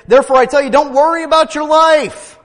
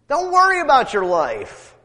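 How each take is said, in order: First: High, loud preacher's proclamation; full-force preaching. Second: High, loud repeat of the line; emphatic repeat. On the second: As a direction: drive the point home again. Repeated line, still raised. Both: Acted.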